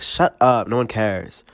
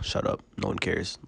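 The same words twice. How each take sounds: First: It is said like a bratty movie teenager. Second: It is said plainly and sincerely, as a real opinion.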